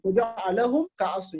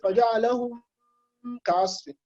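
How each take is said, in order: First: The two words run on without a pause. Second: A held pause separates the two words. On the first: The speaker calls it right. "You don't do a pause" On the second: The speaker calls it wrong. "You don't say"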